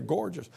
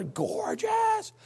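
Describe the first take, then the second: First: Said in the usual way. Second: Very high, drawn-out gush; exaggerated gushing. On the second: Preacher raving about secondhand brown shoes, hammed-up gushing. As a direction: squeal it in over-the-top admiration.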